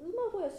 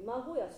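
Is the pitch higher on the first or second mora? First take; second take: first; second. First: The pitch does not rise on the second mora. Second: The pitch rises on the second mora. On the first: The speaker calls it wrong. "馬小屋しじゃなくて" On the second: The speaker calls it right. "馬が上がりますよね"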